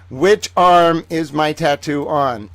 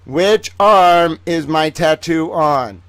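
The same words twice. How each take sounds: First: Slow, "arm" stressed, falling end; quiz question. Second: "arm" pressed harder, slow and louder; slower louder quiz. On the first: Host quizzing viewers, slow with "arm" stressed. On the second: Host repeating the quiz, slower and louder. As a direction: drive the quiz home on "arm". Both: Shown as a demonstration. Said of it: "Let's play the game".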